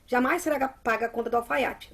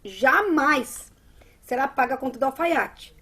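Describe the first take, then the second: First: It runs on without a pause after jamais. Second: There is a pause after jamais.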